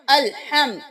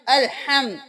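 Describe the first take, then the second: No difference in how they are said.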